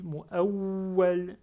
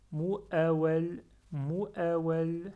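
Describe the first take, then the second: First: MU'AWWAL with the w held and pressed, louder; with shadda. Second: MU'AWWAL with a short, unheld w; without shadda. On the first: Teacher showing students shadda on waw, w held hard. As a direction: lean on the doubled w in "mu'awwal", drawn out slowly. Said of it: "Donc je retiens le waw, j'appuie dessus". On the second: Teacher showing students the word without shadda, unstressed w. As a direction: say "mu'awwal" gliding lightly through the w, no doubling. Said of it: "Si j'ai pas shadda, je dis". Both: Shown as a demonstration.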